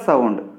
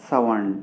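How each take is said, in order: Both takes have the same delivery.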